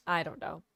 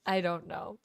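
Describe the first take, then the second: No difference in how they are said.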